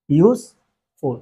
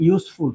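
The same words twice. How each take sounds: First: "useful" split in two, long pause between ইউজ and ফুল; syllable by syllable. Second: Said in the usual way. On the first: Shown as a demonstration. Teacher counting syllables for students, "useful" said in two separate parts.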